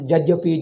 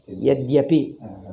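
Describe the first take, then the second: First: The word begins with a J sound. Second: The word begins with a Y sound. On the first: The speaker calls it wrong. "They pronounce Jajyapi" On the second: The speaker calls it right. "have you ever heard in Sanskrit? Yadyapi"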